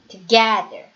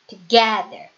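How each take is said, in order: No difference in how they are said.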